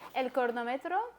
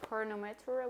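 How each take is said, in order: First: The word is said with a Spanish accent. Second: The word is said with an English accent.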